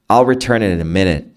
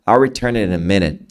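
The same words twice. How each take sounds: First: The T in "it" is softened and blended. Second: The T in "it" is softened and blended.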